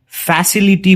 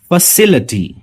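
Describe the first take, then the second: First: फैसिलिटी with a clear ई before टी; wrong take. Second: फैसिलिटी ending in a reduced अटी; फैसिलिटी with the ी swallowed; right take. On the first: Teacher imitating how many people say it, mock wrong. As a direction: common mistaken फैसिलिटी, लि fully sounded. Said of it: "वो गलत है". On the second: Teacher giving students the correct form, model. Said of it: "इसका सही pronunciation है". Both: Shown as a demonstration.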